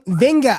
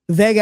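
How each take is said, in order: First: It is said with an n before the g. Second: It is said without an n before the g. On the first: The speaker calls it right. "It is pronounced like Venga with an N" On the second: The speaker calls it wrong. "it is not Vega"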